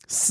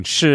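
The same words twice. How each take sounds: First: "s" as a hissed syllable where "sh" is expected; isolated "s" replacing "sh"; regional S for SH. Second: "sh" as a hushing syllable, not "s"; isolated standard "sh"; expected SH sound. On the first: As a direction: say a plain "s", tongue forward. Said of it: "s when you're expecting sh". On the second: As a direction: say a clear "sh", tongue drawn back. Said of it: "when you're expecting sh". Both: Shown as a demonstration.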